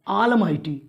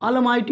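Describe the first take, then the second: First: The first vowel is long, like 'aal'. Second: The first vowel is short, like 'al'. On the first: The speaker calls it right. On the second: The speaker calls it wrong. "अलमाइटी नहीं"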